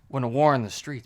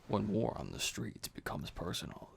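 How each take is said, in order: First: The voice is ordinary and plain. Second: The voice is deep and dramatic. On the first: The speaker calls it wrong. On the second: The speaker calls it right.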